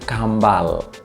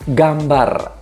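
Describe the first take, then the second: First: It begins with k and ends with l. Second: It begins with g and ends with r.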